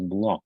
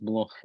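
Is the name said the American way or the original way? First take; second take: American; original. First: The name is said like the English word block. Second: The name is said as in its original language. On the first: "Americans pronounce that word as block" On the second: "pronounce Bloch his real name"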